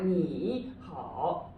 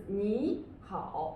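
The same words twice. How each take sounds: First: "你好" with both syllables dipping; slow wrong reading of "你好", full dip on each syllable; two third tones. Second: Natural reading of "你好", rising first syllable; second-then-third tone. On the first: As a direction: dip 你 low before rising, then dip 好. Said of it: "but it's not 你好". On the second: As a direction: lift 你 upward, then drop on 好. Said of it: "we would say what". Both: Shown as a demonstration.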